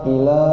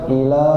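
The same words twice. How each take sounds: Both takes have the same delivery.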